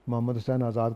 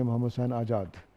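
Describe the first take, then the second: First: Azad is said with a 'z' sound. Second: Azad is said with a 'j' sound. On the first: The speaker calls it right. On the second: The speaker calls it wrong.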